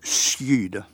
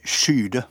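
First: The word begins with a separate s and j. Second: The word begins with a single sh-sound. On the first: This is how everyone said it a century ago. "med s-j, veldig tydelig uttalt" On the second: This is how people say it now. "Nå sier de skyde"

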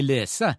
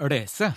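First: The L is an ordinary clear L. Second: The L is a thick, flapped L. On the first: The speaker calls it right. "for eksempel i lese" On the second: The speaker calls it wrong. "Det vil aldri hete lese på norsk"

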